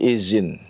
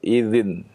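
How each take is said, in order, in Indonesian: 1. Konsonan tengahnya adalah bunyi 'z'. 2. Konsonan tengahnya adalah bunyi 'th' yang lembut. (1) "berubah menjadi zai" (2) "itu dengan dal"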